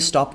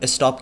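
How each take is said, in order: First: It is said without any added vowel sound. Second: It is said with an extra vowel sound added. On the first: The speaker calls it right. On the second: The speaker calls it wrong.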